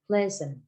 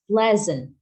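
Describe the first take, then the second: First: The middle consonant is an s sound. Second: The middle consonant is a z sound. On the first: The speaker calls it wrong. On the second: The speaker calls it right.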